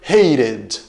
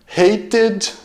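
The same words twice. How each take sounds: First: The middle consonant is a quick r-like flap. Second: The middle consonant is a clear t sound. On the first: "eles trocam esse T pelo R" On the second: "aqui eu estou pronunciando com o, o som de T, de fato"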